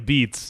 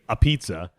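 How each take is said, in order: First: It is said with a b sound, like 'abeets'. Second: It is said with a p sound, like 'a pizza'. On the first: The speaker calls it right. "instead of saying a beats" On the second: The speaker calls it wrong. "people say a pizza"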